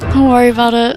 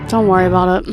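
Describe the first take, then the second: First: It is said in a nervous tone. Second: It is said in a disappointed tone.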